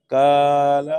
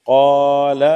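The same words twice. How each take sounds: First: 'قال' with thin forward K, like kaala; light KAF. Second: Rounded, full-mouthed Q on 'قال'; heavy QAF. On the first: Teacher showing the confusion, thin KAF. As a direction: flatten 'قال' to light K, loud. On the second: Teacher giving an example, heavy QAF. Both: Shown as a demonstration. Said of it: "قاف، کاف میں کون سی مشابہت".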